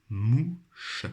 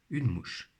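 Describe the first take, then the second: First: "mouche" drawn out as mou, pause, che; syllable by syllable. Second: Said in the usual way. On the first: Shown as a demonstration. Teacher helping pupils find the syllable, syllable by syllable. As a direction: sound out "mouche" slowly in two beats. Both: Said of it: "dans leur première syllabe".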